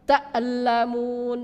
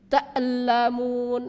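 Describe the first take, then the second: First: The glottal stop is released with a bouncing echo. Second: The same.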